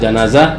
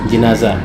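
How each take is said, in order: First: The first syllable has the vowel a. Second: The first syllable has the vowel i. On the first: "bil fath" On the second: "wal kasr"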